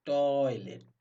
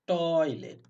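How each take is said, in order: First: Said in the usual way. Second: Loud demo word. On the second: Shown as a demonstration. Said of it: "coin, coin".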